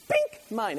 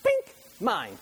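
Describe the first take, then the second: First: Imitated movie villain, a touch higher; mock villain claiming it again. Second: A light imitation of a movie villain's grab; mock villain claiming it. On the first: Preacher imitating villain grabbing blanket, lightly voiced. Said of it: "that's what the villain would do". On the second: Preacher imitating Elmo movie villain, lightly voiced. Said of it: "he would go".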